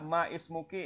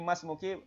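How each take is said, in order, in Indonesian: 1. Kedua kata terpisah dengan bunyi 'i' yang jelas. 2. Kedua kata menyambung tanpa bunyi 'i'. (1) "bacaannya tidak ma ismuki" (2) "ini Mas Muki bacaannya"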